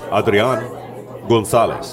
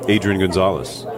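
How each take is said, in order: First: The name is said with Spanish pronunciation. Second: The name is said with English pronunciation. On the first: This is how the name is properly said. "If you want to say his name right" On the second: This is how most local fans expect to hear it. "this is kind of the anglicized way"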